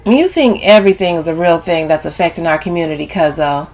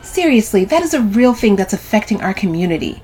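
First: Mocking echo at everyday pitch; unimpressed brush-off; dismissive. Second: Higher-pitched serious reproach; earnest lecturing of a cousin; earnest insistence. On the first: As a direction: throw the cousin's words back, dismissively. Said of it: "Camille dismisses Sylvie". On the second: Sylvie insists earnestly, later echoed. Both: A narrator's reading.

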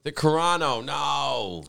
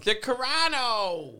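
First: A lighter whine; whiny voice. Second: High, drawn-out whine; whiny voice. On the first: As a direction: less drawn-out whiny take. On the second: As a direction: whine the name slowly. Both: Shown as a demonstration. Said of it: "I like to use my whiny voice".

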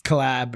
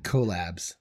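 First: Collab with schwa, stress on LAB; daughter's pronunciation. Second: Collabs said KOH-labs; Collabs, long O. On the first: Retold or imitated. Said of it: "What does she say?". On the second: Shown as a demonstration. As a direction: Collabs with long O, stress on first syllable. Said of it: "that's the way I say it".

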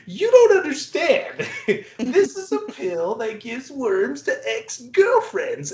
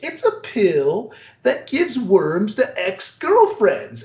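First: Much higher, slow, laughing mad-scientist insistence; crazy scientist insisting. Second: Crazy scientist. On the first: Crazy scientist re-pitching to corporate suits, high and giggling. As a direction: push the pitch up like a giggling lunatic. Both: Retold or imitated. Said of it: "plays this crazy scientist".

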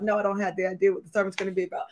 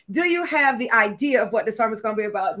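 First: Very fast, low-key rattled-off reply; defeated quick answer. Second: Lightly voiced colleague asking; colleague's question. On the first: Retold or imitated. Preacher answering her production colleague, rushed low-key admission. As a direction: rush it out under the question. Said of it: "she knows that I'm crying all day". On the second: Production colleague asking the preacher about the sermon, measured question. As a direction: put it as a measured, checking question. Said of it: "She's like".

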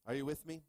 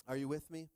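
Both takes have the same delivery.

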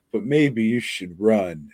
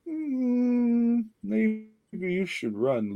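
First: Said in the usual way. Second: High, slow mock-heroic plea with a drawn-out "Mm"; lightly hammed-up noble sacrifice voice, drawn out; mock heroic warning. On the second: Mock dramatic warning to Leroy.

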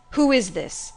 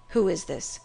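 First: Louder, more insistent demand; sharp, urgent questioning. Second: Restrained first demand. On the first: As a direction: press the question hard. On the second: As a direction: ask it warily, under control. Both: A narrator's reading. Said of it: "he demanded".

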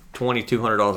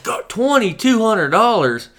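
First: Said in the usual way. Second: Very high, loud, drawn-out disbelief; mock shock. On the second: Customer hearing the scope's price, exaggerated shock. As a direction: exclaim it as if floored.

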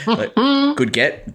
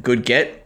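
First: High, slow sarcastic "good get"; drawn-out mock praise. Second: Said in the usual way. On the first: Real, not acted. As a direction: stretch "good get" out slowly, pitched up. Echoing a comment, mock drawn out.

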